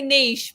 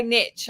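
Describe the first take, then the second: First: "niche" said as "neesh"; own pronunciation "niche". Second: "niche" said as "nitch"; other pronunciation "niche". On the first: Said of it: "I say niche". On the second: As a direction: say "niche" with short i and a tch ending. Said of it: "but you say niche". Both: Shown as a demonstration.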